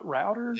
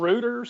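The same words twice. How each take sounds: First: It is said with an American pronunciation. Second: It is said with a British pronunciation. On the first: "and not routers" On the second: "they also call them routers"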